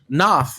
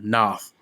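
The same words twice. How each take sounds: First: It is said in the speaker's plain voice. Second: It is said imitating Grey Worm's voice.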